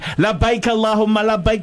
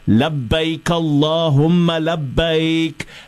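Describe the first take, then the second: First: The phrase is shouted very loudly. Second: The phrase is raised but not shouted. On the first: The speaker calls it wrong. "that's shouting" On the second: The speaker calls it right. "This is raising your voice"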